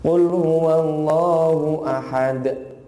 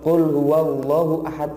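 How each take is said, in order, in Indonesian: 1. Vokal pada Allah dibaca dua harakat. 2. Vokal pada Allah dipotong terlalu pendek. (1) "jadi dua harokat" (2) "itu kependekan"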